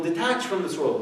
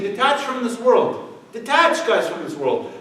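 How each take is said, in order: First: Said in the usual way. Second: High, loud, slow mock sermonizing; mock preachy hypocrite. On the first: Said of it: "he's telling people". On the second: Mocking the hypocrite telling people to detach, high and loud. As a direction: ham up a pompous preacher urging detachment.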